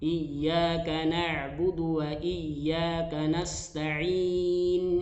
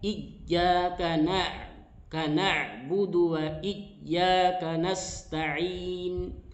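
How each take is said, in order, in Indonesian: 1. Y ganda ditekan sedang, tidak terlalu kuat. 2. Y ganda ditekan terlalu keras. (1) "ada penekanan sedikit" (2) "Tidak terlalu kuat"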